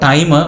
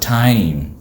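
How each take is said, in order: First: An extra vowel follows the final m. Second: The word ends cleanly on the m. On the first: The speaker calls it wrong. "Not timer" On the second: The speaker calls it right. "but time"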